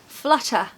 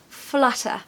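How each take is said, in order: First: The T is pronounced as a crisp, strong T. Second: The T is pronounced as a crisp, strong T.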